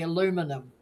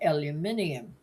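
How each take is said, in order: First: It is said with four syllables, American style. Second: It is said with five syllables, Australian style. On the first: This is how Americans say it. "in America they say aluminum" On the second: This is how the speakers' own country says it. "whereas we say aluminium"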